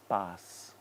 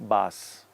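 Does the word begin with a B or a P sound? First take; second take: P; B. First: It begins with a puffed voiceless P sound. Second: It begins with a voiced B sound. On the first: The speaker calls it right. "Look at my lips" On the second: The speaker calls it wrong. "You may end up just saying bas"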